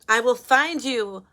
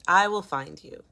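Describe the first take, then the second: First: It is said playfully, not taking it seriously. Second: It is said in an earnest, serious tone. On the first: The speaker calls it wrong. "I can't even take it serious" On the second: The speaker calls it right. "I'll get serious"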